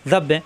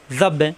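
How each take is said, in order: Both takes have the same delivery.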